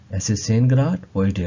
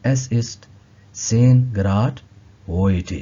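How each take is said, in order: First: Very slow, each word of zehn Grad heute spaced out; slow model phrase. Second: Said in the usual way. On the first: Shown as a demonstration. Teacher modeling German for students, very slow. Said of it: "teacher repeats German phrase slowly".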